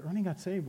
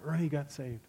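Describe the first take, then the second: First: Mild disbelief, rising at the end; surprised echo. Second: Said in the usual way. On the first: Retold or imitated. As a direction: repeat the news as a startled question. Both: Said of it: "I said".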